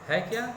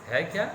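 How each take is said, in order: Both takes have the same delivery.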